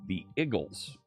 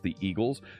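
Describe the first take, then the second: First: It is said in a Philadelphia accent. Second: It is said in a standard accent.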